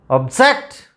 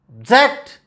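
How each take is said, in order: First: The stress is on the second syllable. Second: The same.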